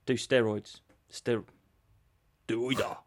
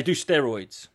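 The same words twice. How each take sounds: First: Low, halting mock Japanese accent; badly faked Japanese accent, pitched down; attempted Japanese accent. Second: Said in the usual way. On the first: Promoter answering an injured fighter, in a halting mock Japanese accent. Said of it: "can I do my Japanese voice?". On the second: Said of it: "They say".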